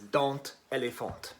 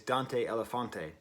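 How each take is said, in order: First: The name is said with a French pronunciation. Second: The name is said without a French pronunciation. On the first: The speaker calls it wrong. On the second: The speaker calls it right.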